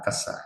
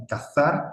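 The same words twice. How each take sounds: First: CAZAR with S, "ka-SAR", softer; Spain's S. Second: CAZAR with TH for Z, rising; Spain's Z. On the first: Teacher showing usage in Spain, CAZAR with S. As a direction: say CAZAR as "casar", dropping away. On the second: Teacher showing usage in Spain, CAZAR with TH. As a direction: say CAZAR as "ka-THAR", Castilian style. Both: Shown as a demonstration. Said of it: "En España".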